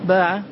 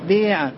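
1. الحركة الطويلة 'a' مفتوحة خالصة. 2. الحركة الطويلة مائلة نحو 'e'.

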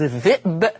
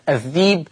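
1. الكلمة فيها همزة في الوسط. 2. تُبدل الهمزة بحرف مد طويل.

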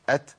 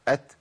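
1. يخرج نفس مسموع بعد صوت t. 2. يخرج نفس مسموع بعد صوت t.

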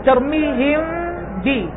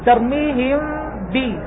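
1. الميم مخفّفة والشفتان مفتوحتان قليلا. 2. الميم مخفّفة والشفتان مفتوحتان قليلا.

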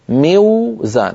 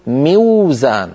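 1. يأتي صوت «w» بعد الكسرة القصيرة «i». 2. يأتي صوت «w» بعد الكسرة القصيرة «i».

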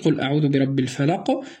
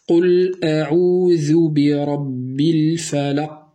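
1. تُطلق القاف الأخيرة مع ارتداد خفيف. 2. تُحبس القاف الأخيرة بإحكام دون إطلاق. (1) "أعيد" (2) "لو أردنا أن لا نقلقل ... هناك انحباس للصوت"

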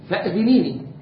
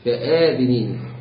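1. الحركة بعد الهمزة قصيرة. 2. الحركة بعد الهمزة طويلة. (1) "لو كان مقصور الهمس كيف نقول؟" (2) "ممدود الهمس"

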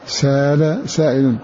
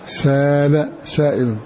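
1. تحل ألف طويلة محل الهمزة في الكلمة الأولى. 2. تحل ألف طويلة محل الهمزة في الكلمة الأولى.

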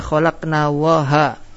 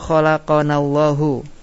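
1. Kata terakhir berakhir dengan vokal a. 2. Kata terakhir berakhir dengan vokal u. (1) "Kalau dibaca khalaqna waha itu jadi kufur ucapan ini" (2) "Fa'ilnya isim dhahir lafzul jalala"

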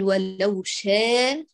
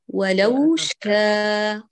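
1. الألف الممدودة مائلة بقوة نحو الكسرة. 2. الألف الممدودة تبقى مفتوحة وواضحة.

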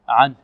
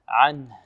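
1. صوت الهاء في الآخر مخفي ويكاد لا يُسمع. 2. صوت الهاء في الآخر يُنطق بنفَس خارج بوضوح. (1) "بعض الطلاب يقول عنه عنه ... أين الهاء؟" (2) "بل لابد من إيضاح الهاء. هكذا"

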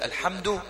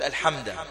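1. تنتهي الكلمة بالحركة 'u'. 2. تنتهي الكلمة بالحركة 'a'. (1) "بدل أن يقول الحمد" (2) "يقول الحمد، هو غير يا أخوانا من الضمة إلى الفاتحة"

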